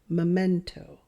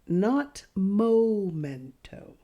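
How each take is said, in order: First: The first syllable sounds like 'meh'. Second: The first syllable sounds like 'moh'. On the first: The speaker calls it right. "Memento, not momento. Do you hear the difference?" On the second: The speaker calls it wrong.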